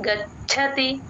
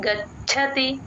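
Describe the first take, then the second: First: The 'ch' sound has a clear breathy puff. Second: The 'ch' sound has a clear breathy puff.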